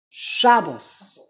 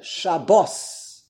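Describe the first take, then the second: First: "Shabbos" stressed on the opening SHA, falling after; Yiddish first-syllable stress. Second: "Shabbos" stressed at the end, sha-BOS; Hebrew last-syllable stress. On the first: Teacher answers for Yiddish, "Shabbos" stressed on SHA. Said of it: "The emphasis is on the shin". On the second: Teacher answers for Hebrew, "Shabbos" stressed on "-bos". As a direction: throw the weight onto the BOS of "Shabbos". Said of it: "seventh day in Hebrew". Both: Shown as a demonstration.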